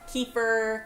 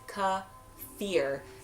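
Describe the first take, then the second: First: The word is not said as 'kuh-fear'. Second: The word is said as 'kuh-fear'. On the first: The speaker calls it wrong. "some say keeper" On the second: The speaker calls it right. "the actual pronunciation is kefir. K U H uh, dash F E A R"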